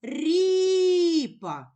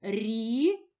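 First: "ріпа" called out loud and high, first syllable stretched; calling the word. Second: "Ріпа" in two beats, a long gap between Рі and па; split into syllables. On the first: Teacher calling the word to find its stress, drawn out. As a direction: call "ріпа" with a long stressed і. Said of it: "Покличемо слово". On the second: Teacher clapping out syllables with a child, split apart. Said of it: "поділимо слово на склади". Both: Shown as a demonstration.

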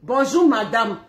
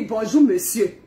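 First: Mock cold husband greeting. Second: Mock frosty reply. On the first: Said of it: "il dit". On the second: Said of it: "elle dit".

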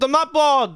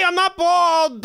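First: Tossed-off repeat of the protest; brisk insistent repeat; quicker repeat. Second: Indignant denial. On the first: Repeats the denial. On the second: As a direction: drag it out in mock outrage. Denies being bald to kids. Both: Real, not acted.

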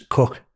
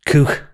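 First: "cook" with a short vowel, as in "book"; American pronunciation. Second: "Cook" with a long oo, as in "spook"; Scouse pronunciation. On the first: Translating for an American, "cook" with short vowel. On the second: Boxer showing his Scouse word, "Cook" with long oo. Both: Shown as a demonstration. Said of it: "In American, it's cook".

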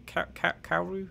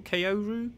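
First: "Kaoru" as KOW-roo after stammered false starts; halting pronunciation attempt. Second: "Kaoru" said as KAY-oh-roo, questioning rise; tentative pronunciation. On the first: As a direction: feel out "Kaoru" with an OW sound. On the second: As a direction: try "Kaoru" with a long AY first. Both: Shown as a demonstration. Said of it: "How do you pronounce that name".

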